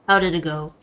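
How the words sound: It is said in Tamika's put-on character voice.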